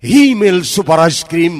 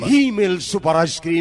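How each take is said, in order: First: Louder brand name call; loud slogan. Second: Said in the usual way. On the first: Shown as a demonstration. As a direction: punch out the slogan. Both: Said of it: "নামটাই মনে রাখবেন".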